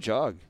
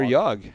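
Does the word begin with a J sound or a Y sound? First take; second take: J; Y. First: The word begins with a hard J sound. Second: The word begins with a soft Y sound.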